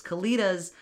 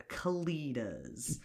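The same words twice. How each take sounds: First: Louder, higher Kalitas with delight; gushing. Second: Breathy whisper of the name; hushed Kalitas, voiceless. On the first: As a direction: say Kalitas like you adore them. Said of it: "gush about these Kalitas". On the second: Whispered aside about the creatures. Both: Real, not acted.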